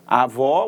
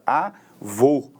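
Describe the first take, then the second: First: Avó ending on an open o; open vowel in avó. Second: Avô split in two, ending on a closed o; closed vowel in Avô. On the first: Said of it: "som aberto". (avó com o ó final bem aberto) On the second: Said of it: "a pronúncia é fechada". (Avô pausado, com o ô final fechado) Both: Shown as a demonstration.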